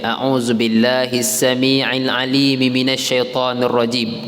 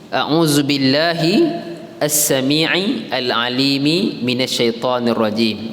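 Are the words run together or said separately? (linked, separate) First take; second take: linked; separate. First: The words are run together, endings linked. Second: The words are said separately, each ending kept.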